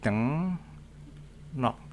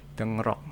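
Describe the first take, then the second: First: The second syllable starts with an N sound. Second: The second syllable starts with an R sound. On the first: It follows the pronunciation rules. "Tapi kalau dibaca menjadi deng nok, di mana R-nya berubah menjadi N" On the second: It is read as written. "Ini secara tulisan tulisannya ... deng rok"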